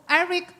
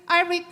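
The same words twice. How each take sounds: The two takes are said the same way.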